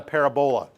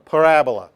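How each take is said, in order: First: Parabola said PAIR-a-bo-la, stress on the first syllable; wrong pronunciation. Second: Parabola stressed on the second syllable, pa-RA-bo-la; correct pronunciation. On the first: Teacher mimics the common wrong way, plainly. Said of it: "not a parabola". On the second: Teacher models the right way to say parabola, loud. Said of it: "put the accent on the right syllable". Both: Shown as a demonstration.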